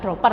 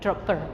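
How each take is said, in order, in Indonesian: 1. Bunyi p di tengah itu pendek. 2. Bunyi p di tengah itu dibunyikan panjang. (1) "bukan dropper" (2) "P double, itu tasdid ya, jadi double"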